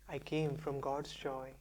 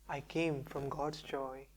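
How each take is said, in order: No difference in how they are said.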